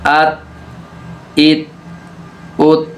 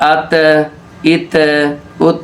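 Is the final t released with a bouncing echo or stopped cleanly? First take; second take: clean; bouncing. First: The final t stops cleanly without any bounce. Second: The final t is released with a bouncing echo. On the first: The speaker calls it right. "इसको हमने हिलाया नहीं" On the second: The speaker calls it wrong. "अगर हम इसको गलत पढ़ें तो ऐसे होगा"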